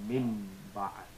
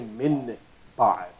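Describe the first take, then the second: First: The nasal before the b sounds like m. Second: The nasal before the b is a clear n. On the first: The speaker calls it right. "We say min ba'd" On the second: The speaker calls it wrong. "We don't say min ba'd"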